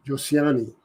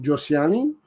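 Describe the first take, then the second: First: Josiani with a falling end, softer; settling on the name. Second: Josiani with a rising, questioning end; questioning name attempt. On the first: Trainer working out a viewer's name, soft falling Josiani. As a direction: say Josiani quietly as a settled answer. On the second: Trainer checking a viewer's name, questioning rise on Josiani. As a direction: try out Josiani as if asking. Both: Real, not acted. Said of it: "I think that's Josiani".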